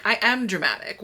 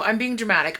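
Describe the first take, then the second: First: "am" given full weight in "I am dramatic"; stress on AM. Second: Said in the usual way. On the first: Real, not acted. Vlogger owning up to viewers, stressing "am". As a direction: own it, leaning on the word "am". Corrects herself to own it.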